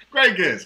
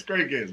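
First: Bright praise. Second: Said in the usual way. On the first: Real, not acted.

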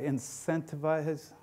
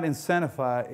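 First: "incentivize" slowly, with a clear t: in-SENT-a-vize; retry "incentivize" softly, sounding out each syllable; slow, careful "incentivize" with every sound in place; careful pronunciation. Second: "incentivize" with the t dropped, like in-SEN-a-fy; slurred attempt at "incentivize", missing its t; unsure pronunciation. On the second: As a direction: stumble through "incentivize" as "incennify". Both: Real, not acted. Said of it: "how do you say that correctly?".

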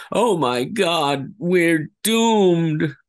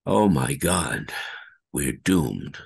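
First: Higher, slow, dread-filled wail; a scientist who knows it's over; doomed scientist's despair. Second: Said in the usual way. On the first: Shown as a demonstration. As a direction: stretch out "doomed" in hopeless dread. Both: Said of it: "Like so".

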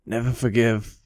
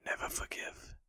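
First: Said in the usual way. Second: Soft, airy, toneless whisper; ghostly whisper. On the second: Acted. Vengeful ghost repeating her curse, eerie whisper. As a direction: breathe it like a ghost.

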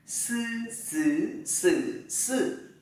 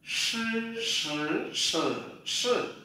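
First: "Sư" with the tongue tip behind the upper teeth; hissed "Sư", "sứ", "sử", "sự" with the tongue flat. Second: "Sư" with the tongue tip curled up; retroflex sh. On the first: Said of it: "Bắt đầu đẩy này". ("Sư" đầu lưỡi thẳng) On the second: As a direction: curl the tongue back for "Sư", "sứ", "sử", "sự". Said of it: "đầu lưỡi cuộn lên như thế này". ("Sư" cuộn lưỡi) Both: Shown as a demonstration.

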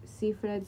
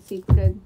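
First: Said in the usual way. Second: Siegfried called out loud, with a hard k sound, Sikfried. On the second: Shown as a demonstration. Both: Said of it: "kind of a very similar".

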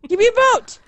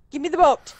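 First: Higher, urgent cry; frantic demand. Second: Said in the usual way. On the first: Real, not acted. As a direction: demand it desperately. Frantic for escape boat.

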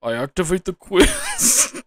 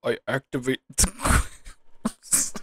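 First: Higher and louder, drawn out, declaring a move; Yugi voice, bigger. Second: Slow, dramatic duel announcement; Yugi voice. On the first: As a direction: announce it like a duelist at full power. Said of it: "can't help it". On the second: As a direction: play it like a card duelist declaring a move. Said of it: "Yugi voices". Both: Pretend.

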